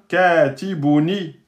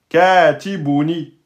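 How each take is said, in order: Both takes have the same delivery.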